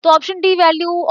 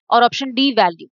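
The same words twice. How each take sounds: First: option डी value lifted higher, डी stressed; raised questioning repeat. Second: Said in the usual way. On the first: Shown as a demonstration. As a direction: pick up the option again, voice raised, weighing it. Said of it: "teacher repeats the option to weigh it". (Option डी value ऊँची आवाज़ में, डी पर ज़ोर) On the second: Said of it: "teacher names the option, then repeats".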